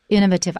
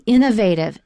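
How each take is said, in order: First: It is said a less common, mostly British way. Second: It is said the usual American way. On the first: "I've also heard innovative. Innovative. I don't really like that pronunciation" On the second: "In American, we say innovative"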